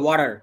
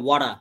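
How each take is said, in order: First: It is said in an American accent with final r. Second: It is said in an Australian accent without final r. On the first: "আমেরিকানরা বলবে ওয়াটার" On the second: "Australian বলবে ওয়াটা"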